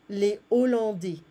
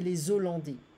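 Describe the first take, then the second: First: No z sound joins the two words. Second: A z sound joins the two words. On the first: The speaker calls it right. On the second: The speaker calls it wrong.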